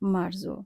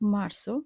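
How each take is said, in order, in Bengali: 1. শেষ স্বরের আগের ব্যঞ্জনটি j-এর মতো শোনায়। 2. শেষ স্বরের আগের ব্যঞ্জনটি s-এর মতো শোনায়। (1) "বলবো না মার্জো" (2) "হবে দন্তার স এর মতো। আমরা উচ্চারণ করব মার্সো"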